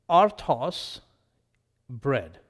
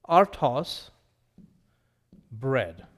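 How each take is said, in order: No difference in how they are said.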